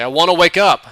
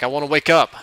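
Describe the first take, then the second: First: Loud, high, pleading shout; desperate shout to be let out; desperate yell. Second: Pleading. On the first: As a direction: yell it, begging to wake up. Pleading louder to wake up. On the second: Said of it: "And he just laughs". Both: Retold or imitated.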